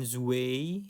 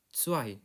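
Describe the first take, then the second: First: The word starts with a plain z sound. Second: The word starts with a ts sound. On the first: The speaker calls it wrong. "bukan zwei" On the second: The speaker calls it right. "Z dibacanya huruf T S atau C. E I dibacanya I"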